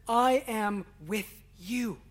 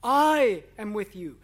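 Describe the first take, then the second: First: "I am with you" drawn out slowly, no word singled out; unhurried, reverent reading of "I am with you"; slow solemn quote. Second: "I" punched hard and loud at the start of "I am with you"; loud emphatic "I" opening "I am with you"; stress on I. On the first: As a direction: speak it slowly and gravely. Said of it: "In the Greek, the I is emphatic". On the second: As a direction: hit the word "I" with full force. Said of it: "the I is emphatic". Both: Shown as a demonstration.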